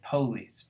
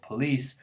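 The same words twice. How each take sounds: First: The stress is on the first syllable. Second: The stress is on the second syllable. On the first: It follows an English stress pattern. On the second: It keeps the original French pattern. "mimics the original French stressing of the second syllable"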